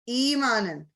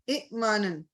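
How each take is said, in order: First: A long smooth 'ee' vowel flows into the m. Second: A short vowel, then a glottal catch before m. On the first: "हमजा के साथ और कसरा के साथ जो साउंड निकलती है वो या की निकलती है" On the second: "ये ए मानन झटका"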